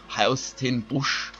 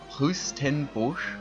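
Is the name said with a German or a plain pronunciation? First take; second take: German; plain. First: The name is said with German pronunciation. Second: The name is said in a plain, non-German way. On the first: "I always want to pronounce it in a German way" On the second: "I think that's how you say it"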